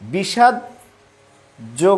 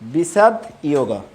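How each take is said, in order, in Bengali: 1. শব্দটি j উচ্চারণ দিয়ে শুরু হয়। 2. শব্দটি y উচ্চারণ দিয়ে শুরু হয়। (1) "বিষাদ যোগ না বলে" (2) "এভাবে আমরা উচ্চারণ করব বিষাদ ইয়োগ"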